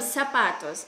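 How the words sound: The word begins with an s sound. This is the Filipino form. "По-филиппинском сапатос"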